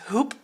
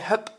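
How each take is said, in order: First: The vowel is a long 'oo' sound. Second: The vowel is a short 'uh' sound. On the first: This is the original Arabic pronunciation. "It's Arabic for a love. Actually, you pronounce it as hoop" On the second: This is the Dutch way of saying the name. "pronounce it in the Dutch way"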